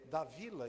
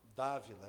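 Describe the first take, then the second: First: The stress is on the second syllable. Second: The stress is on the first syllable. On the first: The speaker calls it wrong. "o acento agudo foi no I" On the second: The speaker calls it right. "e era no A aqui"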